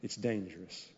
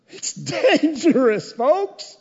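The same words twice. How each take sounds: First: Dropped low and soft, "dangerous" almost breathed; hushed warning. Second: High, loud, slow "dangerous" pressed out; loud warning. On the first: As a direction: lean in and say it quietly. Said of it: "warning repeated later loudly". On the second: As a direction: hammer the warning at the congregation. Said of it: "loud repeat of earlier warning". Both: Shown as a demonstration.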